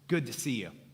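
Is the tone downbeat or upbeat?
downbeat. The tone is low and unenthusiastic. The greeter is not really glad.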